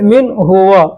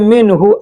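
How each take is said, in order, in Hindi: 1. सर्वनाम अलग खड़ा रहता है, पूरा 'huwa' बनकर। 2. सर्वनाम जुड़ा रहता है, छोटा 'hu' बनकर। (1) "अलग करेंगे तो हुआ बोलना पड़ेगा" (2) "अगर एक में करके बोलते हैं तो हु बोलना पड़ेगा"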